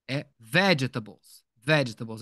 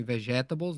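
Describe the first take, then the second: First: Vegetables stressed on the first syllable, ve, slowly; slow, stress VEgetables at the very start; right stress. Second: Vegetables stressed on the middle syllable, ta; the way they read vegetables wrongly, stressing ta. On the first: Teacher modelling the correct stress for students, slowly. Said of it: "É lá no início". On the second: Teacher showing students the wrong reading, softer. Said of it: "Tinham lido assim". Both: Shown as a demonstration.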